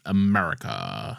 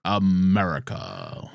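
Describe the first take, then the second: First: Slow, lowered fake Mandarin "America.". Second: Slow, drawn-out fake American villain accent; fake Mandarin voice. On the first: Slipping back into the fake Mandarin, a slow low "America.". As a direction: drawl "America." in the mock Mandarin villain accent. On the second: Echoing co-host, he drawls "America." in the fake Mandarin accent. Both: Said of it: "fake Mandarin".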